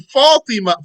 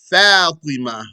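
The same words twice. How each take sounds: First: The first a vowel sounds heavy and dark. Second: The first a vowel sounds light and open. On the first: The speaker calls it wrong. "some people say" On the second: The speaker calls it right. "It's Fa. Open your mouth"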